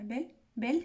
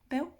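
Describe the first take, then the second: First: The word has a French accent. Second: The word has an Essex English accent.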